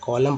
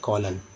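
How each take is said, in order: First: The word ends with an m sound. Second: The word ends with an n sound. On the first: The speaker calls it right. "कॉलम पढ़ा गया" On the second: The speaker calls it wrong. "ना कि कॉलन"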